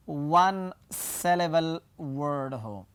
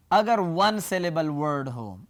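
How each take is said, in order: First: वन syllable word spaced out slowly, word by word; slow down and set apart each word of वन syllable word; emphatic repeat. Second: Said in the usual way. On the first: Shown as a demonstration. Teacher answering own check question for students, वन syllable word slow and emphatic. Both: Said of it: "अगर क्या हो?".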